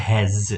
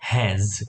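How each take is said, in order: First: The word ends with a z sound. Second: The word ends with a z sound.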